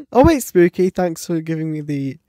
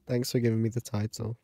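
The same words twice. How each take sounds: First: Bright, quick excited thanks. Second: Thanks through a laugh, quick. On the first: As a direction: thank them with a burst of joy. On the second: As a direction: laugh it out as you repeat. Laughs while repeating thanks. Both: Real, not acted.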